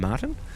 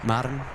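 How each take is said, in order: First: The middle T is clearly pronounced. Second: The middle T is slurred away. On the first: The speaker calls it right. "I made uh, the effort to say Martin tonight and to pronounce the T correctly" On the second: The speaker calls it wrong. "always get in trouble for uh, slurring"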